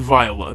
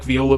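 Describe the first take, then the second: First: The name is said unlike the instrument viola. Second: The name is said like the instrument viola. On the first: This is how the film says it. "They kind of pronounce it like that in the movie" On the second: It matches the musical instrument. "I like Viola better because that is a pretty cool instrument"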